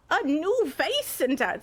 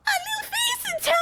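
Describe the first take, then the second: First: Higher, slow would-be Irish accent; failed Irish accent attempt. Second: Extremely high, airy squeak; top of the range. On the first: Streamer showing why it fails, attempted Irish accent. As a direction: attempt a drawn-out Irish lilt. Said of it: "See, I can't do it". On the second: Streamer trying a friend's voice advice, airy top-range voice. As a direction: push it to your highest pitch with lots of air. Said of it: "Top range of your voice and keep that tone with a ton of air". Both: Shown as a demonstration.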